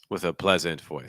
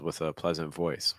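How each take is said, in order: First: The stress falls on the word pleasant. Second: The stress falls on the word voice. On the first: The speaker calls it wrong. "That's what I'm hearing" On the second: The speaker calls it right. "You probably want to stress voice a little more"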